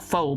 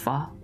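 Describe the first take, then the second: First: The word is said the plain English way. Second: The word is said the Vietnamese way. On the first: This is how most English speakers say it. The speaker calls it wrong. "So people just call pho" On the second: This is how it is said in Vietnamese. The speaker calls it right. "but it, it, it's pho"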